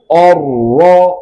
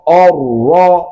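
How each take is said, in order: No difference in how they are said.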